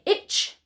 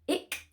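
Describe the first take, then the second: First: The word ends in a tch sound. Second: The word ends in a hard k sound. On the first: "So we don't say itch" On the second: "not that hard k sound"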